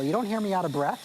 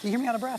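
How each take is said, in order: First: Said in the usual way. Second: "You hear me out of breath?" with a higher questioning rise on "out of breath"; rising challenge to the co-host; teasing question. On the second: Shown as a demonstration. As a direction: toss it back as a playful question.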